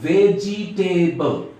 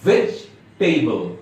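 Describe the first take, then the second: First: The vowel after the j sound is pronounced. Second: The vowel after the j sound is silent. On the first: The speaker calls it wrong. "এটা ভুল উচ্চারণ।" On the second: The speaker calls it right. "সঠিক উচ্চারণ হবে ভেজিটেবল। ... এই ইটা silent থাকবে।"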